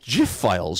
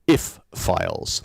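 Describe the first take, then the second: First: The word starts with a soft G sound. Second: The word starts with no G sound. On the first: "with a soft G" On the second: "the letter G shouldn't be pronounced at all"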